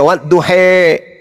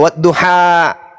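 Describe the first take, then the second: First: The final vowel is shifted toward 'e'. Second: The final vowel is an open 'a'.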